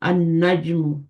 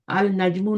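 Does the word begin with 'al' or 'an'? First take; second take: an; al. First: The l merges into a doubled n sound. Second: A clear l is said before the n. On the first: The speaker calls it right. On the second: The speaker calls it wrong.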